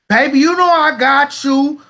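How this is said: It is said in a put-on accent.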